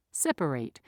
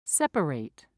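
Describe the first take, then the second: No difference in how they are said.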